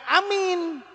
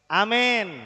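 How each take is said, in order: First: Amin with a long, high ee in the last syllable; wrong pronunciation. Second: Amin said as "amen", with an e; correct pronunciation. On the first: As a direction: stretch "amin" high as a-MIIIN. (amin diucapkan panjang dan tinggi dengan bunyi i) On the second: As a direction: say "amin" as a-MEN, falling. (amin diucapkan "amen" dengan bunyi e) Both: Shown as a demonstration. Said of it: "Bukan amin".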